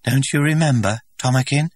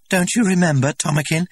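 First: Higher, louder, wavering plea; trembling voice. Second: High, loud, eager question rising; hopeful asking. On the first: Linda, rejected, asking the director again, trembling. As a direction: hold back the tears as you ask. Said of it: "she repeated in a voice that trembled". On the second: Linda pressing the director to remember, eager. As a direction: coax him to remember. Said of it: "Linda asks him". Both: A narrator's reading.

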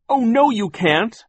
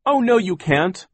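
First: Very high, loud, slow protest; desperate cry. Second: Much higher, louder protest; defiant cry. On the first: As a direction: plead and shout at once. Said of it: "Violet cried". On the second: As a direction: cry out to stop them. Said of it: "Klaus cried". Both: Acted.

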